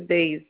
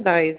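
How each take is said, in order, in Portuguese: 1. A vogal soa como 'ei', como em 'day'. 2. A vogal soa como 'ai', como em 'eye'. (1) "é DEIS" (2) "Não é DAIS"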